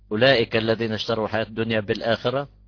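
The reading stops right after 'bil-akhira'. The phrase gives a complete meaning on its own. The speaker calls it right. "نوقف"

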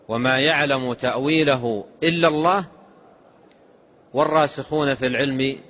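There is a pause after the word Allah. Only God knows the true reality of the ambiguous verses. "يلزم الوقف"

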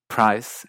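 It is said in an American English accent. "en partes de Estados Unidos"

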